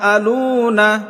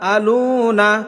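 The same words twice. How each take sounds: Both takes have the same delivery.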